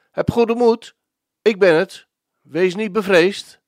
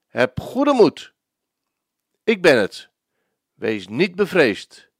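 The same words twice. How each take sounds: First: Raised, carrying voice calling out comfort; reassuring call, high and firm; calling reassurance. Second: Gentle reassurance. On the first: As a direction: call across the water to calm them. Jesus calls to frightened disciples. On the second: Preacher repeats Jesus' comfort. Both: Acted.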